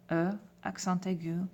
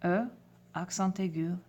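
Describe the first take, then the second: No difference in how they are said.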